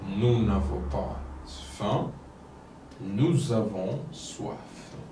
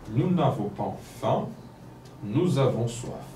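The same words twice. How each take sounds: First: It is read a little more slowly. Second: It is read at a normal speaking pace. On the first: "la deuxième fois un peu lentement" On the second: "La première fois, normalement"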